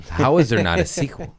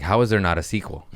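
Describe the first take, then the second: First: Mock indignant, pushed higher; louder, higher outraged repeat. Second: Said in the usual way. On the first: Shown as a demonstration. Fan demanding a sequel, mock outrage.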